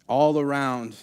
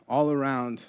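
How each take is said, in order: Both takes have the same delivery.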